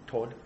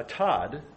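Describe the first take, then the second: First: Todd in an Australian accent, rounded to "tawd". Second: Said in the usual way. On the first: Shown as a demonstration. Preacher showing how Australians say his name, Australian accent. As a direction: put on an Aussie "aw" vowel for Todd. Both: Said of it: "let's put my Aussie accent on".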